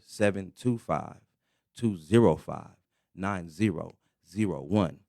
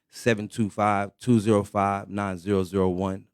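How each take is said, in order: First: The number is said more slowly. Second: The number is said at normal speed.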